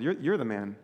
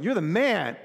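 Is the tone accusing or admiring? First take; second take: accusing; admiring. First: It sounds like a blunt, accusing charge. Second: It sounds like praise, admiring and upbeat. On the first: He is blaming the man for the wrong. The speaker calls it right. "It's you. You're the one" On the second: He is complimenting the man. The speaker calls it wrong. "I always misread this. I'm always wanting to be like, you're the man. But that's not the tone here"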